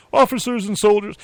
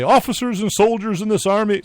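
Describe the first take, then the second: First: Put-on Southern accent. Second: High, loud orator's proclamation; George Washington voice. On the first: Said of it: "it was a Southern accent they think they had". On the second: Retold or imitated. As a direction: boom it like an old general addressing troops. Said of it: "so that's how he sounded".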